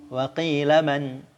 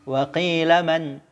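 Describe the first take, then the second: Both takes have the same delivery.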